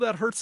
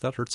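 First: It is said with strong emotional distress. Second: It is said in a flat, unemotional voice. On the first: The pain feels terrible. "the way a normal person would" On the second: The pain registers but carries no emotional weight. "in a very flat voice"

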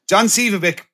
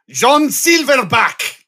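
First: The surname is said as Sivabek. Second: The surname is said like Silverback. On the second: "became John Silverback"

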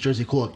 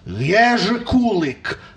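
First: The name is said with an English pronunciation. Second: The name is said with a Polish pronunciation. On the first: "I know my name's Jerzy Kulik" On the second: "if a Polak stopped me and says, no, he is Jerzy Kulik"

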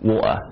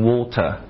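First: The middle T sound is dropped entirely. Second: The middle T sound is clearly pronounced. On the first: "他把那个T 就直接给扔掉了" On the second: "一些英国人会说成Water"

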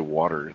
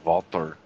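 First: It is said in a plain, unaccented way. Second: It is said with a Russian accent.

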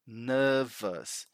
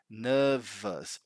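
First: The word is said in a British accent. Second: The word is said in a British accent.

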